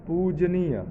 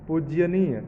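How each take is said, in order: Both takes have the same delivery.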